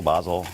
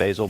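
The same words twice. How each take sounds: First: "basil" with an AH, BAH-zul; British-style pronunciation. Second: "basil" with an AY, BAY-zul; American pronunciation. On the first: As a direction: say "basil" with a broad ah. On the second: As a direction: say "basil" with a long ay. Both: Shown as a demonstration. Playful contrast of two pronunciations.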